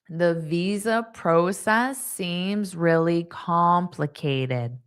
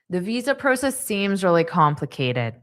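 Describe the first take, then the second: First: The sentence is spoken slowly. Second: The sentence is spoken fast. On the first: "I'll say it slow one more time" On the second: "and then I'll say it fast"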